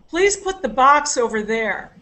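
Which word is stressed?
box. The stress is on the word box.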